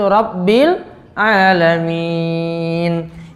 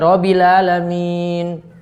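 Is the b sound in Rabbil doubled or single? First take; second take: doubled; single. First: The b sound is held and doubled. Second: The b sound is short and single. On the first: The speaker calls it right. "Harus ada penekanan situ" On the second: The speaker calls it wrong. "Gak boleh hilang tasydidnya"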